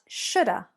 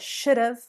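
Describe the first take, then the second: First: The word 'have' is reduced to 'uh'. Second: The word 'have' is pronounced fully. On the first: "but shoulda" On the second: "Not should have"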